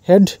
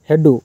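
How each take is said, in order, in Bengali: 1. শব্দটি একটি ব্যঞ্জনধ্বনি দিয়ে শেষ হয়। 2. শব্দটির শেষে একটি অতিরিক্ত u স্বরধ্বনি যোগ করা হয়।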